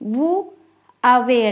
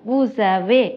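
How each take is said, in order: First: The two words are said separately with no link. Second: A z sound links the two words together. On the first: The speaker calls it wrong. "வூ அவே என்று கதைக்காம" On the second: The speaker calls it right. "சேர்த்து கதைக்க பழகணும்"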